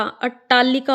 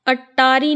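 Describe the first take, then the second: First: अट्टालिका with doubled T and "-aalikaa"; correct form demo. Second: अट्टारी ending in "-aari"; wrong form demo. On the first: Teacher gives the correct word, अट्टालिका ending "likaa". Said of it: "होता है". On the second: Teacher shows the wrong word, अट्टारी ending in "ri". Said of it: "नहीं होता". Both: Shown as a demonstration.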